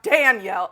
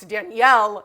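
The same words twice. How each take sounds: First: The stress is on the first syllable. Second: The stress is on the last syllable. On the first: The speaker calls it wrong. "not Danielle" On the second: The speaker calls it right. "the emphasis is supposed to be on the yell. It's Danielle"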